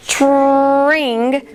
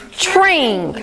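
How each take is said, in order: First: Tring drawn out slowly; stretched word. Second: Said in the usual way. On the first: Shown as a demonstration. Teacher stretching a word for pupils. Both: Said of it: "we're gonna stretch these words".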